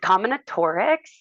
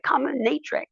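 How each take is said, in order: First: The word is said with five syllables. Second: The word is said with four syllables. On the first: The speaker calls it right. "it's combinatorics" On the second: The speaker calls it wrong. "sometimes people will be like combinatrix"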